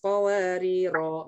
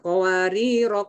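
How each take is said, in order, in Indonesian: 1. Vokal akhir setelah r dibaca panjang. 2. Kata itu berakhir dengan r saja. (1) "rohnya dibaca panjang" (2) "Ro-nya dibaca sukun"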